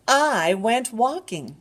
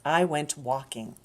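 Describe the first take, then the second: First: Higher, brighter storybook voice; lively read-aloud for little ones; reading to a toddler. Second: Said in the usual way. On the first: Shown as a demonstration. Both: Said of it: "repeated line, livelier take".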